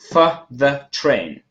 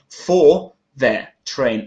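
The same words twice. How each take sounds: First: The words are shortened and run together quickly. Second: Each word is said fully and clearly.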